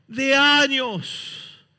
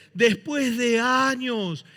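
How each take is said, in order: First: "años" stretched very slow, a bit louder and higher; heavier drawn-out emphasis. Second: "años" stretched long and falling; drawn-out emphasis. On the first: Preacher repeating "años" to hammer it home, slower and stronger. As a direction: pull "años" out even longer and stronger. Preacher stressing the long years. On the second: Preacher dwelling on "años", slow emphasis. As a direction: lean into "años" slowly. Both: Acted.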